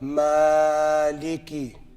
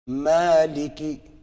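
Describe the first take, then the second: First: The long vowel is stretched out far too long. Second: The long vowel is held for two beats only. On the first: The speaker calls it wrong. "Not maliki. That's too much" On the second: The speaker calls it right. "Maliki, maliki, maliki. Enough"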